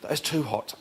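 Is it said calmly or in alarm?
alarm. It is said in loud alarm, like a scream.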